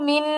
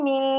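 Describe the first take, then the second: First: মিন ending on a clear tongue-tip n; the n of মিন fully sounded; clear n, incorrect. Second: মিন said as a held nasal "ming"; long humming "ng" ending on মিন; anusvara-like ghunna. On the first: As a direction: say মিন with a plain held "n", not "ng". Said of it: "মিন বলে গুণনা করতেছি না". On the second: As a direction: hide the n of মিন in the nose as "ng". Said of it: "অনিশ্বারের মতো একটা". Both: Shown as a demonstration.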